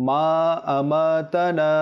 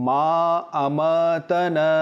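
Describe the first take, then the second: Both takes have the same delivery.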